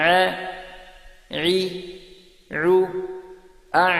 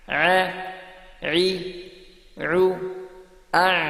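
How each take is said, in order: Both takes have the same delivery.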